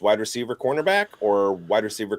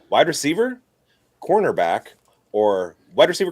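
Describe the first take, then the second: First: The phrase is spoken at a quick pace. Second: The phrase is spoken at a slower pace.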